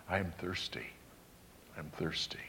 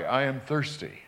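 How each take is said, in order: First: Much softer, lower, a weak dying voice; faint and parched. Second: Said in the usual way. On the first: Retold or imitated. Preacher voicing dying Jesus asking for drink, faint and parched. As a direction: let it fall almost to nothing, parched.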